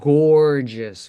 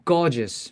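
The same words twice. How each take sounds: First: The R after the vowel is strongly pronounced. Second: The R after the vowel is barely pronounced. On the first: "with a strong R for North American English" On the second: "In British English, they minimize it. They just say gorgeous"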